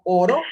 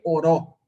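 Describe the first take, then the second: First: "oro" with the weight on the first O, falling on the end; stress on first syllable. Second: "oró" with the weight on the final Ó; stress on last syllable. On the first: Teacher contrasting word stress for students, hitting the first syllable of "oro". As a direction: lean on the front of "oro", ÓRO. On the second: Teacher contrasting word stress for students, landing on the last syllable of "oró". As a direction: push the end of "oró", oRÓ. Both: Shown as a demonstration. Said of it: "No es lo mismo".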